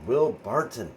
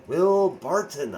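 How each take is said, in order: First: Said in the usual way. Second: "Will Barton" drawn out slowly, higher and louder; exasperated. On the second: Real, not acted. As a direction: groan his name in disbelief. Exasperated about a disappointing player.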